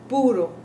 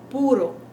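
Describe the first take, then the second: No difference in how they are said.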